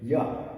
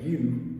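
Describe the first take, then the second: First: The word ends in a reduced uh vowel. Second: The word ends in a full oo vowel. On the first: "you will hear ya" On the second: "Instead of you"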